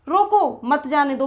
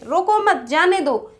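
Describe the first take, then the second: First: The pause comes after 'roko'. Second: The pause comes after 'mat'.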